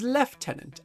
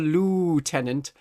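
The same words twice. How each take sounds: First: The word begins with a 'lef' sound. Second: The word begins with a 'loo' sound. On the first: The proper British rank. The speaker calls it right. "as good British people do" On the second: A person who looks after the toilets. The speaker calls it wrong. "They're the tenant of the loo"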